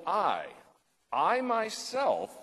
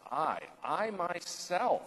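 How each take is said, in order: First: "I, I myself" with the "I" pitched high and slow; emphasis on I. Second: "I, I myself" said slow with "I" lifted high; a slow, high, emphatic "I myself". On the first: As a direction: lean hard and slow on "I myself". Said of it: "Notice the emphasis there". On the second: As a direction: press down slowly on "I, I myself". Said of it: "notice right in verse eleven how emphatic that is". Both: Shown as a demonstration.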